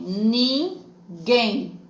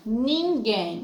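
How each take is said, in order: First: "ninguém" drawn out as nin, guém; teacher separating "ninguém", strong final guém; split into syllables. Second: Said in the usual way. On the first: Shown as a demonstration. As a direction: break "ninguém" into two slow beats. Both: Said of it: "a separação".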